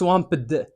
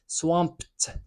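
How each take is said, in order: First: The ending is pronounced as a separate 'id' syllable. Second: The ending is pronounced as a short 't' sound. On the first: The speaker calls it wrong. "واخا تشوف الاي دي هنايا ما تنطقش swamped" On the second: The speaker calls it right. "تخيلها انها كاين في الاخر تي"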